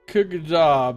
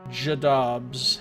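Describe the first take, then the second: First: The name begins with a hard K sound. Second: The name begins with a soft J sound. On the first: The speaker calls it wrong. "That's not how you pronounce it, obviously" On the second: The speaker calls it right. "C G they said was pronounced j like like at the end of the word edge"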